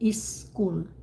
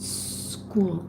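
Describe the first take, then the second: First: A short vowel sound comes before the s. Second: The word starts directly with the s sound. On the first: The speaker calls it wrong. "some of you would say is school" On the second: The speaker calls it right. "You just say shh"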